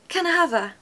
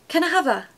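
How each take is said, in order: First: The words are run together into one smooth word. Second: The same.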